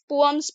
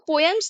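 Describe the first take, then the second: First: The two vowels meet with no glide. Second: A y glide joins the two vowels. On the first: The speaker calls it right. "सही उच्चारण पोअम्स है" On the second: The speaker calls it wrong. "इसको पोयम्स नहीं"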